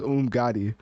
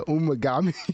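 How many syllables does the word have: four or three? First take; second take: three; four. First: It is said with three syllables. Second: It has an extra vowel, four syllables. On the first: The speaker calls it right. "it says Umgadi" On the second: The speaker calls it wrong. "he said like Umagami"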